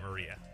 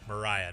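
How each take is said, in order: First: The middle syllable sounds like 'ree'. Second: The middle syllable sounds like 'rye'. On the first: The speaker calls it wrong. "not Maria" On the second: The speaker calls it right. "My name is pronounced like Mariah"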